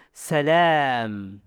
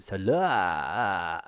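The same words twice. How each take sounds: First: "Salam" with a long, open, forward a; open mouth-cavity voice. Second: "Salam" much lower, swallowed in the throat. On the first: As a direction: release "Salam" from the open mouth, not the throat. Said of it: "tapi suara al-jauf". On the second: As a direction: sink the long a of "Salam" down the throat. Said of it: "Suara tenggorokan". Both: Shown as a demonstration.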